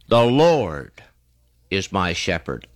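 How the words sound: The stress is on Lord.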